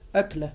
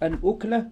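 First: The first vowel is an 'a' sound. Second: The first vowel is a 'u' sound. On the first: It means a single meal. "وهي بفتح الهمزة" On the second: It means a single mouthful. "وأما الأكلة بالضم فهي اللقمة"

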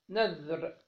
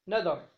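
First: The middle consonant has no vowel after it. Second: The middle consonant is followed by an a vowel. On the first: "بذال معجمة ساكنة" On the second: "وحكي فتحها"

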